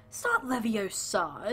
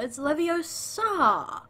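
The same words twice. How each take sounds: First: Leviosa said quicker, dropping in pitch; mock correction, wrong version. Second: Leviosa high, loud and very drawn out; emphatic correction, right version. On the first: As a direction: reject this quicker, falling Leviosa as the mistake. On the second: Acted. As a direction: stretch Leviosa slowly, soaring up before the final drop.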